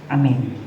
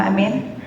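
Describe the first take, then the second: The two takes are said the same way.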